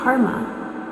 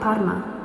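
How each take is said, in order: First: The R sounds almost like an American R. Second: The R sounds like a standard Italian R. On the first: "they say their R's almost like they're American" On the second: "not like Parma"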